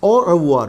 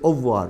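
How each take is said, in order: First: Said carefully with the R clearly pronounced. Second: Said quickly with the R dropped. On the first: "it's au revoir" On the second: "when you say fast, you will may not hear that R"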